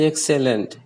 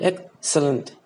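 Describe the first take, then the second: First: The stress is not on the first syllable. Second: The stress is on the first syllable. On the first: The speaker calls it wrong. "It's not pronounced as excellent" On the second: The speaker calls it right. "Ek is the louder part, the most stressed part"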